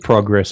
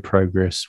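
First: The word is said with an American pronunciation. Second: The word is said with an Australian pronunciation. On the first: This is how the American recording voice says it. "She says progress" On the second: This is how the host himself says it. "I say progress"

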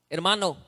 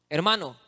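Both takes have the same delivery.

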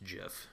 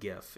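First: The word begins with a j sound. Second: The word begins with a hard g sound. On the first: This is how the creator says it. The speaker calls it wrong. "that's peanut butter" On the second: This is how most people say it. The speaker calls it right. "So it's graphic image format"

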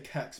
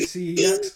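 First: It is one syllable starting with a k. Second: It is spelled out as three separate letters. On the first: The speaker calls it right. "I say kex, because that is the best kex. Way to say it" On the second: The speaker calls it wrong. "I don't say CEX"

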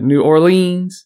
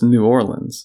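First: The stress falls on the final syllable 'leans'. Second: The final syllable 'leans' carries no special stress. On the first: "You kind of put the emphasis on the leans. You kind of went New Orleans" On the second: "Where I would go with just New Orleans"

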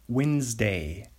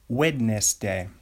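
First: The word is said the everyday way. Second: The word is said in an unusual way.

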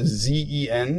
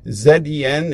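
First: Z is said as zee, American style. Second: Z is said as zed, Canadian style.

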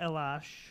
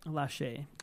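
First: The name ends without a final vowel sound. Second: The name ends with a final vowel sound. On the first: The speaker calls it wrong. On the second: The speaker calls it right.

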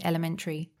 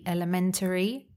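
First: The schwa is dropped and the syllables run together. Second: Every syllable is said, including the schwa. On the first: "we don't really pronounce that schwa sound, the T-ri. We would connect it and say elementary" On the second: "the full form would be elementary"

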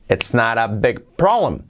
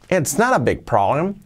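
First: It is said flatly, without expressive intonation. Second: It is said with lively, expressive intonation.

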